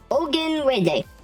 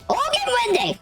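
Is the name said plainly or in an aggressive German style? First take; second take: plain; aggressive German. First: It is said plainly, in the speaker's own voice. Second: It is said aggressively, imitating a German accent.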